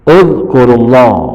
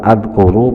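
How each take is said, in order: First: The word begins with an u vowel. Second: The word begins with an a vowel. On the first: The speaker calls it right. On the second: The speaker calls it wrong. "bukan adkuru"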